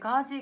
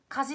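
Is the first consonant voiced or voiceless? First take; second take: voiced; voiceless. First: The first consonant is voiced, like g. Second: The first consonant is voiceless, like k. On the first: The speaker calls it right. "点々をつけてガジカジカジにした方が絶対いいと思います" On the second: The speaker calls it wrong. "カジカジカジって言うとなんかちょっとおかしい"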